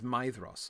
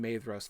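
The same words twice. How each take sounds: First: The first vowel sounds like 'eye'. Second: The first vowel sounds like 'ay'. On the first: The speaker calls it right. "the A E vowel combination is pronounced like I" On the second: The speaker calls it wrong. "I pronounced the A E combination as A"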